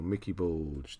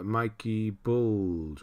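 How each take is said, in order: First: "Mickey Bulge" with a short first i; short-i pronunciation. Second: "Mikey Bulge" slowly, first vowel as in "bike"; long-i pronunciation. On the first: Streamer offering another reading of a viewer's name, "Mickey" with short i. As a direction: say "Mickey" with the vowel of "pick". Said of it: "Mikey Bulge, or". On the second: Streamer sounding out a viewer's name, "Mikey" with long i. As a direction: say "Mikey" like "Mike" plus "ee". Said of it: "or Mickey Bulge". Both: Shown as a demonstration.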